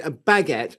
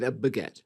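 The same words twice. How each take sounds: First: BAGUETTE with a full "bag" first syllable; contrasted pronunciation. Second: BAGUETTE with a reduced "buh" first syllable; contrasted pronunciation. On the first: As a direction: say baguette as "BAG-et", stressing the start. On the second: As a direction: say baguette as "buh-GET", stressing the end. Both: Shown as a demonstration. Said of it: "well, the pronunciation".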